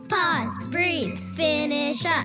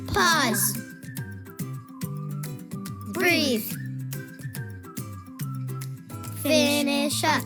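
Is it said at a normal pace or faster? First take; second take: faster; normal. First: It is said a little faster. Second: It is said at a slower, normal pace.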